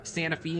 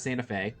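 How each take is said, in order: First: The name is said the local Tennessee way. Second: The name is said the standard outside way. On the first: This is how locals say it. The speaker calls it right. "instead of" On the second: This is not how locals say it. The speaker calls it wrong. "instead of Santa Fe"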